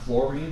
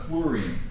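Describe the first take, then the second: First: The first part sounds like 'flour'. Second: The first part sounds like 'flu'. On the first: The speaker calls it wrong. "Not fluorine" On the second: The speaker calls it right. "but fluorine"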